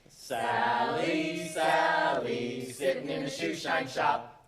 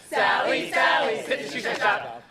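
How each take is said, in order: First: It is said at a normal pace. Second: It is said at the fastest pace.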